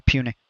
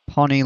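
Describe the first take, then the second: First: "Puny" said PYOO-nee, long u; "Puny" with a long "you" sound; correct pronunciation. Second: "punny" said like puns, short u as in pun; "punny" with the vowel of "puns", not "puny"; wrong pronunciation. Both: Shown as a demonstration. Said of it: "I was about to say Punny Parthenon".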